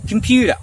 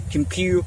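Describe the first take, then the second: First: "computer" flowing as com-pyoo-der. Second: "computer" broken before a crisp T; hard T. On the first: Teacher showing better flow, D sound in "computer". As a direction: soften the T of "computer" to a D. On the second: Teacher showing what to avoid, hard T in "computer". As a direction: say "computer" as com-pyoo-TAH. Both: Shown as a demonstration. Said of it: "replace T with D".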